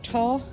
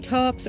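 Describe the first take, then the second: First: The name ends on 'l' with no 'ks' sound. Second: The name ends with a clear 'ks' sound.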